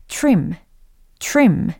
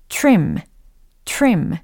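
The two takes are said the same way.

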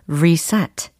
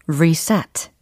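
The two takes are said the same way.

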